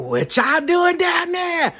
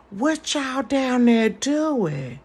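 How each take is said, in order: First: High, slow, loud lurking call; creepy call. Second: Slow, high, drawn-out creepy call. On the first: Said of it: "on some creepy junk". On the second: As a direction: lure the kids with a slow creepy drawl. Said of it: "I'm like this with the kids". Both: Retold or imitated.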